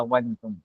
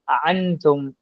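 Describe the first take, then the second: First: A w-like glide joins the two vowels. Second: The second hamza is eased and softened. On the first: "लिखा नहीं पढ़ा जाएगा अवंतुम" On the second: "बैना बैना करीब होगा"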